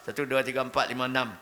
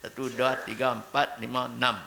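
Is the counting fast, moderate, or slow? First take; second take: fast; moderate. First: The numbers are counted very quickly. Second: The numbers are counted at a steady, moderate speed. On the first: The speaker calls it wrong. "Cepat sangat pula" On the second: The speaker calls it right. "tidak terlalu cepat, tidak terlalu lambat"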